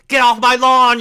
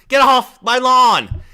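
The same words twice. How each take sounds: First: Loud grumpy yell; shouting at trespasser. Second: Slow, drawn-out grumpy yell; slow shouting at trespasser. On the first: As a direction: yell it off the porch. Repeated lawn yell, first take. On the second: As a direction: stretch the yell out slowly. Repeated lawn yell, slower take. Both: Pretend.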